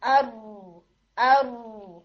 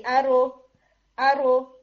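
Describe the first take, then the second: First: ارو with the tongue kept on the ridge, lower and steady; held r. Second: ارو with the r released at once and popped louder; wrong bouncing r. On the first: Teacher gives the correct held r in ارو after the wrong one. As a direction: hold the r in ارو, no bounce. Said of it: "sound کے اندر اچھا خاصا difference". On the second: Teacher demonstrates the mistaken bouncing r in ارو. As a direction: let the tongue leave early in ارو. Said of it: "اس طرح کی sound آئے گی". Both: Shown as a demonstration.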